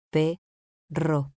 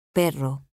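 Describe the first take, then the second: First: "Perro" split as Pe, rro, pause between; syllable by syllable. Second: Said in the usual way. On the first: Shown as a demonstration. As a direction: say "Perro" in two separate pieces, Pe... rro. ("Perro" separado en sílabas: pe, rro) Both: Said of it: "Separación de sílabas".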